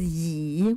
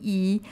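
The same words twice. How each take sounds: First: It is said with the third tone. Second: It is said with the first tone. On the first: It means chairs. "The third term is yi" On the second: It means one. "number one"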